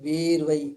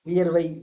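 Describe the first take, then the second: First: The first syllable has a long vowel. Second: The first syllable has a short vowel. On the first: "இங்க வந்து நெடிலா வரும்" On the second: "இங்க எல்லாம் கு- குறிலா இருக்கு"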